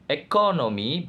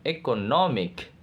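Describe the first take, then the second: First: "economy" with stress on CO, the second syllable; base-word stress. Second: "economic" with stress on NO, the third syllable; shifted stress. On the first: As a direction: punch CO in "economy". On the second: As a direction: punch NO in "economic". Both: Shown as a demonstration. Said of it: "stress change".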